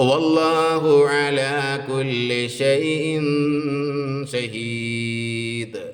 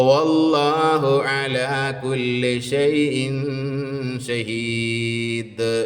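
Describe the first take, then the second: Both takes have the same delivery.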